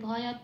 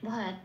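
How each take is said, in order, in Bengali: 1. শেষ 't'-তে পূর্ণ স্বর থাকে। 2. শেষ 't' অর্ধ স্বর দিয়ে নরম করা হয়। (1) "পূর্ণরূপেও বলতে পারবো না" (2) "একটু মিলিয়ে সফটলি একটু বলে দিতে হবে ভয়াত এরকম বলে"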